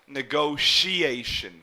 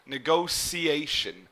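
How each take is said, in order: First: The middle consonant is an SH sound. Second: The middle consonant is an S sound. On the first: "like an S H sound here" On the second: "this T here would almost be pronounced like an S or a C"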